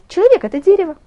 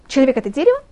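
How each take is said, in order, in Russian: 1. Произносится с повествовательной интонацией. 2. Произносится с вопросительной интонацией.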